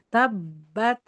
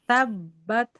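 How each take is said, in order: Both takes have the same delivery.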